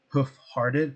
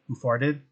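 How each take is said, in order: First: The phrase is said at a slow, careful pace. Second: The phrase is said quickly, words run together.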